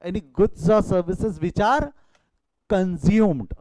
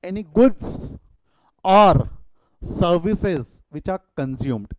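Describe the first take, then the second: First: Very slow, stretched definition; slow dictation repeat. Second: Slow, word by word definition; slow dictation. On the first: Teacher repeating the definition slowly so students copy it. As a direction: drag out every word for the class. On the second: Teacher dictating a definition to the class, slow and deliberate. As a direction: spell the definition out slowly for notes. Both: Shown as a demonstration. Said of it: "यहाँ important word क्या है".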